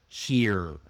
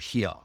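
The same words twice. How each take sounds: First: The final R is clearly pronounced. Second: The final R is dropped. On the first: The speaker calls it right. "repeat the strong R sounds" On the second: The speaker calls it wrong. "not swallowed, not like ka or here"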